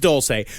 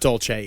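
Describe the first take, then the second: First: It does not sound like the Italian dolce. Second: It sounds like the Italian dessert word dolce. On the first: The speaker calls it right. "Dulce is technically the proper pronunciation" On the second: The speaker calls it wrong. "Dolce's fun to say because it sounds like a gelato"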